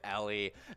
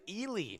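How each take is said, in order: First: The first vowel is a short 'eh' sound. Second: The first vowel is a long 'ee' sound. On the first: The speaker calls it wrong. "that is the common mispronunciation" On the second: The speaker calls it right. "The actual pronunciation is Ely"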